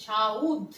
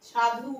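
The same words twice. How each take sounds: First: সাউদ with the u moved before the d; East Bengal form. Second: সাধু said plainly as sa-dhu; পূর্বরূপ সাধু; standard form. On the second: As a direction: give সাধু its written sounds. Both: Shown as a demonstration. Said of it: "ঠিক এরকম ভাবে".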